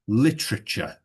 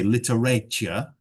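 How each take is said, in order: First: The middle 'a' is weak and reduced. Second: The middle 'a' is pronounced fully and strongly. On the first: The speaker calls it right. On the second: The speaker calls it wrong.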